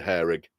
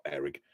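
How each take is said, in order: First: "hair rig" with a sounded H. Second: "Hair rig" said "air rig", Yorkshire H dropped, lower and softer; Yorkshire "Hair rig" without the H. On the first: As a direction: say "hair rig" carefully, H and all. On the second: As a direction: let the H fall off "Hair rig". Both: Shown as a demonstration. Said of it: "I call it the hair rig".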